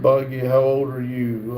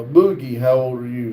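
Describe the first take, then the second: First: Buggy said with a short u as in bug; name misread as Buggy, corrected right after. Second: Boogie said with an oo as in boot; name fixed to Boogie after the slip; corrected name. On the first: Streamer misreads a chat name, says Buggy. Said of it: "Uh, Boogie, how old are you? Sorry". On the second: Streamer corrects his misreading, says Boogie. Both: Shown as a demonstration.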